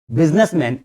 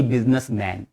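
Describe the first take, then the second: First: बिजनेसमैन with a reduced "men" at the end; बिजनेसमैन, short e in the last syllable; correct pronunciation. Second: बिजनेसमैन with a full open "man"; बिजनेसमैन as two full words, "business-MAN"; wrong pronunciation. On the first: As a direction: say बिजनेसमैन as one word, "biznis-men". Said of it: "दोनों जब एक साथ आ जाएं तो बिजनेसमैन". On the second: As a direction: say बिजनेसमैन ending in a wide "maen". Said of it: "गलत।". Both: Shown as a demonstration.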